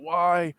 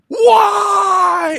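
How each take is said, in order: First: It is said weakly, barely getting it out. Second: It is yelled out loudly.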